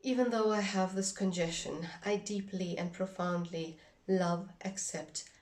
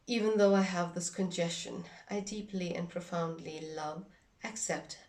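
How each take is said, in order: Both takes have the same delivery.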